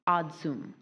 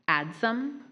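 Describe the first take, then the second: First: The first vowel sounds like in 'odd'. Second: The first vowel sounds like in 'add'. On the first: This is an alternative pronunciation. "Odsum is the other one" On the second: This is the main pronunciation. "Adsum is the primary pronunciation"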